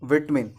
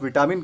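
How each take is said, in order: First: It is said as 'vit-min' with a short first vowel. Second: It has three syllables with a full middle 'ta'. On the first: The speaker calls it right. "इसका सही उच्चारण होता है विटमिन" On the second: The speaker calls it wrong. "अगर आप विटामिन कहते हैं तो ये गलत है"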